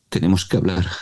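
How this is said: It is said with a fearful tone.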